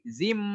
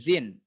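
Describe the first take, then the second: First: The syllable ends with an m sound. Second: The syllable ends with an n sound. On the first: The speaker calls it right. "tapi zim" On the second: The speaker calls it wrong. "Jadi bukan zin"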